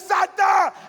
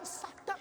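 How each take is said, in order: First: The word is said loudly, with a raised voice. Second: The word is said softly, in a low voice. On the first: The demon is rebuked with authority. The speaker calls it right. "On dit Satan" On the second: The demon is addressed timidly. The speaker calls it wrong. "On ne dit pas Satan"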